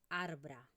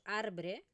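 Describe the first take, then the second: First: The final vowel is a neutral, weak vowel. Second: The final vowel is a clear E sound. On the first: The speaker calls it right. "sino que decimos arbra" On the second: The speaker calls it wrong. "No decimos arbre"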